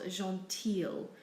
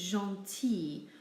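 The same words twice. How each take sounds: First: The ending is said with an L sound. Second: The ending is said with an E sound, no L. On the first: The speaker calls it wrong. "not gentil" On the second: The speaker calls it right. "We simply say e for the I and the L"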